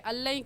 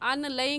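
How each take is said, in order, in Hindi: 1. n छोड़ दिया जाता है और l दोहरा बोला जाता है। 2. n को l से पहले अलग से बोला जाता है। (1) "इस नून को छोड़ देंगे, हमज़ा को लाम के साथ मिलाएंगे" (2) "अन लई क्यों नहीं पढ़ेंगे"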